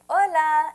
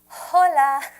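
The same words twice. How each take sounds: First: The H at the start is silent. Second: The H at the start is pronounced. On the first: The speaker calls it right. "that's why we say hola" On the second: The speaker calls it wrong. "and not hola"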